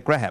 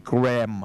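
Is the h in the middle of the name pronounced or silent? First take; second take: pronounced; silent. First: The middle h is pronounced. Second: The middle h is silent. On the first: The speaker calls it wrong. "錯嘅" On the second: The speaker calls it right. "嗰個H 字係完全唔發音嘅"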